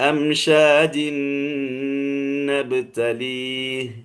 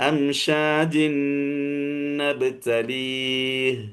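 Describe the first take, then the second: No difference in how they are said.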